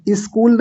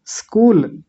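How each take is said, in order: First: स्कूल with an i before it, "iskool"; mispronounced स्कूल. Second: स्कूल straight from a hissed s; correct स्कूल. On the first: Teacher rejecting the common slip, स्कूल as "iskool". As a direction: wrongly open स्कूल on an i. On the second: Teacher correcting the slip, pure स्कूल. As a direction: say स्कूल with no vowel in front. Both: Shown as a demonstration. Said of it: "स्कूल नहीं".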